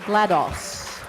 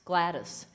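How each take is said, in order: First: The name ends with a 'doss' sound. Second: The name ends with a short 'dis' sound. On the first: This is how the speaker has always said it. "DOS, the operating system" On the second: This is how someone else used to say it. "Eric Wolpaw kept calling her Gladys"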